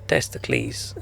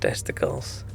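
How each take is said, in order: First: It is said with a mock-Greek pronunciation. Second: It is said with the ordinary English pronunciation. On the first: "pronounce things in a Greek way that's not Greek" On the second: "instead of"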